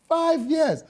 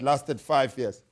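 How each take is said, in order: First: High, incredulous exclamation; outraged disbelief. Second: Said in the usual way. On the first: Real, not acted. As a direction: exclaim it, scandalised. Repeats the figure in disbelief.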